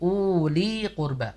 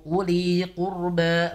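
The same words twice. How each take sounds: First: The u in uli is long. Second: The u in uli is short. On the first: The speaker calls it wrong. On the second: The speaker calls it right. "Jadi dia pendek"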